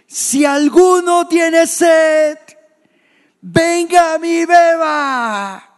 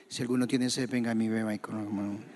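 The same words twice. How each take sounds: First: Loud, high, drawn-out cry to a crowd; voz alzada. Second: Low, quick mumbled reading; apagado, sin alzar la voz. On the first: Acted. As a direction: shout it slowly, every word sustained at full force. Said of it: "y alzó la voz". (grito fuerte, alto y sostenido) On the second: Shown as a demonstration. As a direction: rattle it off low and soft, as if nobody should hear. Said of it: "Jesús no iba a decir eso así". (murmullo bajo y sin fuerza)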